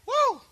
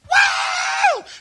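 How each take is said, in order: First: The shout is fairly mild and restrained. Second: The shout is at full, strongest energy.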